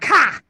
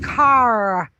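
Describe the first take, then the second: First: It is said with a strong Boston accent. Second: It is said with little Boston accent. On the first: This is how the speaker usually says it. The speaker calls it wrong. "tease me about the way I say car" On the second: This is how the niece says it should be said. The speaker calls it right. "Auntie, it's car"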